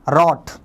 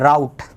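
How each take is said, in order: First: The vowel is a short o, as in hot. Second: The vowel is an ow sound, as in cow. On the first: The speaker calls it wrong. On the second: The speaker calls it right.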